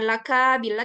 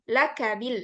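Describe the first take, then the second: First: The vowel after the k is drawn out long. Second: The vowel after the k is kept short. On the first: The speaker calls it wrong. "jangan dipanjangkan kafnya, bukan laka bila" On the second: The speaker calls it right. "tapi laka bil"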